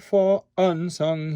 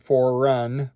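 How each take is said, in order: First: A glottal stop separates the two words. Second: An R sound links the two words together. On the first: The speaker calls it right. "do a glottal stop on un" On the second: The speaker calls it wrong. "or for run. I don't want that"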